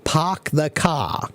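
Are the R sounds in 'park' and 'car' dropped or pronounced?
dropped. The R sounds are dropped, Boston style. "the people of Boston have a special accent ... they say park the car"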